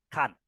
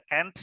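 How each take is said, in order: First: "can't" as a clearly open "kahnt"; British can't. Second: "can't" said like "kent"; American can't. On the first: Teacher contrasting the English reading, "can't" as "kahnt". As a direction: make "can't" differ from "can" with an ah. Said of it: "kalau orang Inggris udah jelas beda". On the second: Teacher letting students choose the reading, "can't" as "kent". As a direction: give "can't" a short front vowel, American style. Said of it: "terserah pilih yang mana". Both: Shown as a demonstration.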